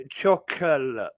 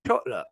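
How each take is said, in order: First: Chocolate said in full as "chock-uh-lit" with every syllable; proper chocolate. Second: Chocolate clipped to "chot-luh", the middle swallowed; his own chocolate. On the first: Showing a mate the proper chocolate, said in full. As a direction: say chocolate the careful textbook way. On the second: Viewers hear how he says Chocolate, clipped to "chot-luh". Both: Shown as a demonstration. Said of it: "You should hear me say chocolate".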